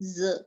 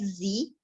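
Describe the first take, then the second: First: It ends in a buzzed z sound. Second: It ends in a clear ee vowel. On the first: The speaker calls it right. "So it will be ज" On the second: The speaker calls it wrong. "It will not be pronounce like जी"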